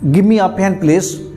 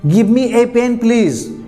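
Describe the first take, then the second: First: The word a is a short weak uh. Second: The word a is a full, stressed ay. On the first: It is an ordinary request. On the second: The request is repeated with emphasis.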